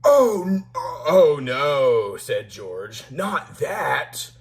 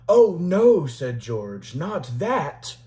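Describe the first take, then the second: First: It is read in a put-on George character voice. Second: It is read in the reader's normal voice.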